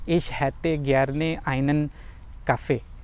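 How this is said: It is spoken with a noticeably non-native, foreign accent. The speaker calls it wrong. "गलत प्रोनाउंसिएशन के साथ"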